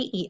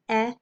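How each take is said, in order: First: The vowel is the long sound, as in 'see'. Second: The vowel is the short sound, as in 'bed'. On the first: "What are my long vowel sounds?" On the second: "What are my short vowel sounds?"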